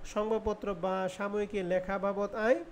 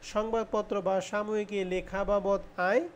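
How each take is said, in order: The two takes are said the same way.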